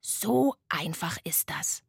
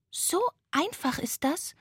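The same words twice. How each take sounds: First: Slow, lower, matter-of-fact sloth; sloth confirming. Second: High ghost question, rising at the end; tired little ghost. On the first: Sloth answering the ghost, slow settled statement. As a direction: confirm it slowly with a settled ending. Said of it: "sagte das Faultier". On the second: Tired ghost asking the sloth, high questioning voice. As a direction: ask in wonder as a small high ghost. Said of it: "fragte das müde Gespenst". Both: A narrator's reading.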